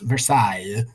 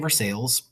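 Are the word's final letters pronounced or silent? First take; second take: silent; pronounced. First: The final letters of the word are left silent. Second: The final letters of the word are sounded out. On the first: The speaker calls it right. "lots of extra letters at the end um, that you don't have to pronounce" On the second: The speaker calls it wrong. "If you say Versailles, I will actually laugh at you"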